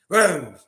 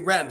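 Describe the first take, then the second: First: It is said with a local French pronunciation. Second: It is said with an English pronunciation. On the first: The speaker calls it right. "they say Reims, Reims" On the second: The speaker calls it wrong. "they don't say Reims"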